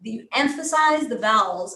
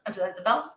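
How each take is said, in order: First: The vowels are long and opened up. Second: The vowels are short and clipped.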